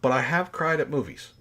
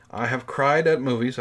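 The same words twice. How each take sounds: First: "have" pushed hard, the rest of the line lower and softer; stress on have. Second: The weight moves from "have" onto "at", said a bit firmer; stress on at. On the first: Insisting to viewers he has cried, stress on "have". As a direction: lean on "have", then let the line drop. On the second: Restating to viewers, stress on "at". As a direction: hit "at" and keep "have" light. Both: Shown as a demonstration.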